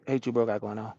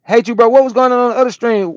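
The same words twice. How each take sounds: First: Said in the usual way. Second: Reads the viewer's message out high and loud; loud chat read. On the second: Acted. Reading a viewer's chat question to the stream, loud and high. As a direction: belt the chat question out, higher.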